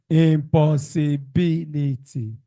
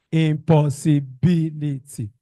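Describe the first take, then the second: No difference in how they are said.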